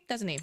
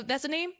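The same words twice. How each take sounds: First: Said in the usual way. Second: "That's a name?" lifted high into a question. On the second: Real, not acted. Reviewer checking what the feature is called, questioning. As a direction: end "name" on a rising, unsure tune.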